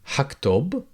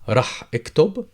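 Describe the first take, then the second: First: The prefix is shortened to a quick ha. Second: The prefix is said in full as rah. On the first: "give it a read with only ha" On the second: "The future tense prefix is either rah or ha"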